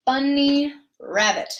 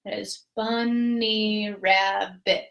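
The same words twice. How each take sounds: First: A touch slower bunny rabbit; teacher demonstrating syllables. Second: Bunny rabbit drawn out in four beats; counting syllables; very slow syllables. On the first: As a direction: say it carefully. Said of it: "a bunny rabbit is what we're going to say". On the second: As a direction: spell the beats out slowly. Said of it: "That's four syllables". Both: Shown as a demonstration.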